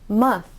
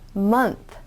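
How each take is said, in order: First: The N sound is dropped before the th. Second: An N sound is heard before the th. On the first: The speaker calls it wrong. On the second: The speaker calls it right.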